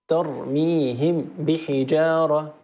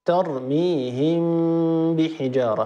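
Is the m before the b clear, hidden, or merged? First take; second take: clear; hidden. First: The m is pronounced fully and distinctly before the b. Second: The m is hidden and nasalized before the b. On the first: "لو أظهرنا لقلنا" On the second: "فلما ننطق الإخفاء لاحظوا"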